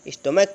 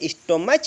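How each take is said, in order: First: The word ends with a 'k' sound. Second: The word ends with a 'ch' sound. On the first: The speaker calls it right. "स्टोमैक पढ़ा जाएगा" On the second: The speaker calls it wrong. "स्टोमच नहीं पढ़ा जाएगा"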